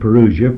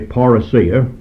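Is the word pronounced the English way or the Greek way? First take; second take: English; Greek. First: The word has its usual English pronunciation. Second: The word has its Greek pronunciation. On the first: "and not the word parousia" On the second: "I'm dealing with the Greek word, and therefore I will say parousia"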